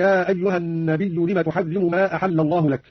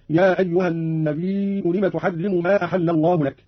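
First: Said in the usual way. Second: النبي with long held ī closing on a hamza; slow recitation, stretching النبي four counts into "nabī'u". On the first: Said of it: "قرأ قانون بهمز الياء". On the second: Shown as a demonstration. Teacher demonstrating Qalun, النبي lengthened onto a hamza. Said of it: "بهمز الياء".

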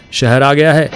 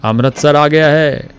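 First: Shout. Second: Slow, high, loud announcement; excited shout. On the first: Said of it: "ऊंची आवाज में चिल्लाया". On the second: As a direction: stretch it out, overjoyed. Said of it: "उसने फिर से कहा". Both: A narrator's reading.

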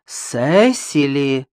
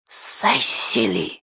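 First: Drawn-out, polite warning; sweetly stern aunt calling someone to order; pleasant but stern. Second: Sharp whispered hiss, drawn-out sibilants. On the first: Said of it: "сказала приятным, но строгим голосом". (приятным, но строгим голосом) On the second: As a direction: hiss the name as a furious hushed warning. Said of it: "прошипела её тётка". (гневным шипящим шёпотом) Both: A narrator's reading.

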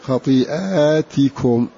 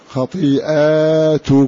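First: خطيئاتكم slow, long "aa" after hamza, then "ti"; kasra on taa. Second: خطيئاتكم slow, long "aa" after hamza, then "tu"; plural with alif. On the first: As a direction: recite خطيئاتكم as "khatii'aatikum", slowly. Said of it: "أنهم يكسرون التاء". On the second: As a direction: recite خطيئاتكم as "khatii'aatukum", slowly. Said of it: "بألف بين الهمزة والتاء". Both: Shown as a demonstration.

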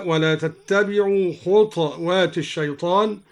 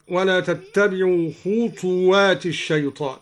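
First: "خطوات" said khutwaat, no vowel on the ta; silent vowel on ta. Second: Said in the usual way. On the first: Shown as a demonstration. Teacher shows al-Duri's reading, "خطوات" as khutwaat. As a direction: close the ta of "خطوات" straight into the waw. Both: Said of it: "قرأ الدوري بإسكان الطاء هكذا".

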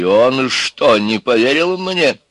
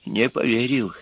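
First: Громко и высоко, с подъёмом на «не поверил мне»; переспросить, взлетая голосом на «мне»; недоумённый вопрос. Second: «Не поверил» негромко, с падением в конце; решить для себя, опустив голос на «поверил»; вывод про себя. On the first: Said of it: "спросила дочь Бабы-Яги". (встревоженно-вопросительно поднять «не поверил мне») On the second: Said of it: "решила дочь Бабы-Яги". (утвердительно, сникая на «поверил») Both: A narrator's reading.

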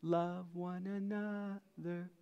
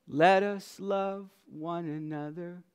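First: Slow, much softer repeat; soft echo. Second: Said in the usual way. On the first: Acted. Preacher softly echoes the verse to his church, slow and soft. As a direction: let the words fall away gently.

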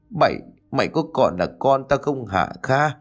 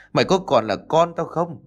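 First: First asking of the furious question; mother confronting her son, a hint of anger; angry question. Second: Repeated question pitched higher, more insistent; mother's second, higher demand at her son; higher angry repeat. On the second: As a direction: push the same question up, rising anger. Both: A narrator's reading.

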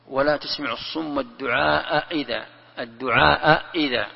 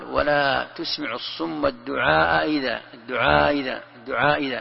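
First: الدعاء إذا with a full glottal stop before إذا; the hamza of إذا fully articulated; both hamzas pronounced. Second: الدعاء إذا with the hamza of إذا eased toward a y sound; softened hamza. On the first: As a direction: give إذا a strong, separate hamza after الدعاء. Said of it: "تحقق الهمزتين، يعني تخرجها من مخارجها". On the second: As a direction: glide الدعاء إذا, halfway between hamza and ya. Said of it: "يعني كيف تنطقها؟ ... بين الياء والهمزة". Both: Shown as a demonstration.

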